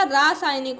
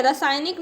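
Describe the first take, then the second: First: रासायनिक with a long first "raa"; long open first vowel in रासायनिक; correct vowel. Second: रासायनिक with a short first "ra"; wrong vowel. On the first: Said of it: "रासायनिक होता है". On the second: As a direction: say रासायनिक as "ra-saaynik". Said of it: "रासायनिक नहीं होता". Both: Shown as a demonstration.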